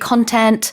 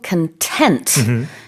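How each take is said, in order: First: The stress is on the first syllable. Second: The stress is on the second syllable. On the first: It means material such as videos or writing. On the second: It means feeling satisfied.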